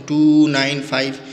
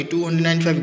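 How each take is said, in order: First: टू nine five read slowly, each digit separate and a bit louder; teacher modelling the right way to read digits after the point. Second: two hundred nine five read quickly as a whole number, the wrong way; teacher showing the wrong way to read the decimals. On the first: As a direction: spell out टू, nine, five one digit at a time. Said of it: "point के बदले के number को हम ऐसे पढ़ते हैं". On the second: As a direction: rattle off two hundred nine five like two hundred ninety-five. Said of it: "गलत होगा". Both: Shown as a demonstration.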